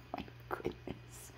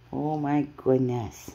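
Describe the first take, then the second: First: Slow whispered exclamation. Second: Said in the usual way. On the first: Real, not acted.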